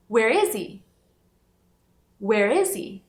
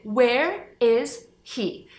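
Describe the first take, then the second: First: Where is he? run together, he with no h, sounding like "whereizee"; connected speech. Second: Where is he? slowly, with the h of he clearly sounded; h pronounced. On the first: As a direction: link it all and drop the h of he. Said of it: "aqui ele vai sumir porque fala conectada". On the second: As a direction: say he with a full h, word by word. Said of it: "no começo da terceira palavra tem a letra H". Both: Shown as a demonstration.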